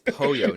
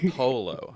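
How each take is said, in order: First: The middle consonant is a Y sound. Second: The middle consonant is an L sound. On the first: The speaker calls it right. "It's Poyo" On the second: The speaker calls it wrong. "not Polo"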